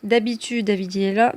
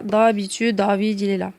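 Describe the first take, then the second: First: Said in the usual way. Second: "David" with a heavy emphatic D; weighty emphatic D in "D'habitude, David"; exaggerated emphatic D. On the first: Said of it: "cette lettre-là". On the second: Shown as a demonstration. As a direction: press the D in "D'habitude" hard and dark. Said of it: "tu vas exagérer".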